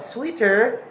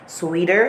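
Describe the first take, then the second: First: Said in the usual way. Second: "sweeter" with a D for the T; American T as D. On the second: Shown as a demonstration. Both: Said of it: "instead of sweeter".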